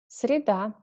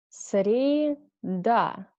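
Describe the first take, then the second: First: The word is said fast. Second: The word is said slowly. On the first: Said as a native speaker normally would. "second time I read faster, like a normal native speaker" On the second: Said carefully, as a teacher would. "First time I read slowly"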